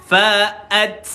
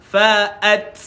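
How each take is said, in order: The two takes are said the same way.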